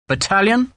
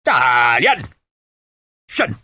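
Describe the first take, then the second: First: BATTALION as a tentative question, rising high; higher-pitched, questioning suggestion; guessing. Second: BATTALION drawn out, then a sharp SHIN; sergeant's drill command; parade-ground bellow. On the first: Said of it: "Sharp guessed". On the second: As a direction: call troops to attention. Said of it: "His voice was loud enough to make the closest men wince". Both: A narrator's reading.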